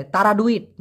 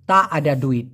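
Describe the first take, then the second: First: "তারা ডুইট" run together, with তারা said as one word; the way many learners slur "তারা ডুইট"; common wrong pronunciation. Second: "তা আডা ডুইট" with তা and আডা kept apart; correct pronunciation. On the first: Teacher showing learners' slurred "তারা ডুইট". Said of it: "যেমন অনেকে বলে". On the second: Teacher giving learners the proper "তা আডা ডুইট". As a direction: separate "তা" clearly from "আডা" in "তা আডা ডুইট". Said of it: "উচ্চারণটা হবে". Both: Shown as a demonstration.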